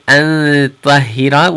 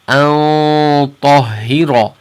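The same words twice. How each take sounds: First: The nasal sound is light, not held back. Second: The nasal sound is heavy, held far back. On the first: The speaker calls it wrong. "We're not gonna say أن طهر" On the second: The speaker calls it right. "you hear it at the bottom because ta is a heavy letter"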